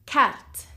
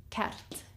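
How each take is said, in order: First: Said in the usual way. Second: Carte whispered, no voice; whispered echo of Carte; whispered repeat. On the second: Shown as a demonstration. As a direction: Carte breathed out softly as an echo. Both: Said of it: "How would you say map in French?".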